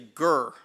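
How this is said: It is said in a deep Southern accent.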